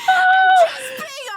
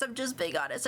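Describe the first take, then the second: First: High, loud words broken by laughter; cracking up while insisting; laughing. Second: Said in the usual way. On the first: Real, not acted. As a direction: laugh it out, barely getting words through.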